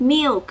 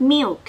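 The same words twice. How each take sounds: First: Milk again said high, falling, clearly; repeated model. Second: Milk said high with a falling tone; model pronunciation. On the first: Teacher repeating milk so children copy it. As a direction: say milk once more for kids to copy. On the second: Teacher modelling milk for children at home. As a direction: say milk slowly and clearly for kids. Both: Shown as a demonstration. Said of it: "คำนี้เราอ่านออกเสียงว่า".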